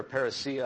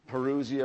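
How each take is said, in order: First: Parousia said as par-uh-SEE-uh; alternative pronunciation. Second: Parousia said as puh-ROO-zee-uh; variant pronunciation. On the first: Preacher offering another way he has heard parousia, par-uh-SEE-uh. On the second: Preacher giving a Greek term for the final coming, first pronunciation, puh-ROO-zee-uh. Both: Shown as a demonstration. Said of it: "I've heard it pronounced different ways".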